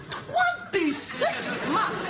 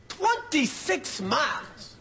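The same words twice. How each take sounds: First: "Twenty-six miles" pitched higher, slow, amazed; incredulous repeat. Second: Said in the usual way. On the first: Shown as a demonstration. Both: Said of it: "Twenty-six miles is a long drive".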